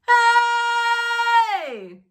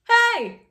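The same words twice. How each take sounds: First: The word is held long. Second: The word is said short.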